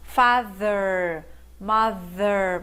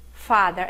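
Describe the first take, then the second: First: "Father, mother" with tongue between the teeth and a buzzing voiced TH; careful voiced TH. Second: Said in the usual way. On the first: Shown as a demonstration. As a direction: hold the TH in "Father" and "mother" so the vocal cords vibrate. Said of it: "colocar a língua entre os dentes e assoprar, mas esse T H aqui é voiced". ("Father, mother" com a língua entre os dentes e TH vozeado) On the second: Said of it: "Cuidado com a pronúncia".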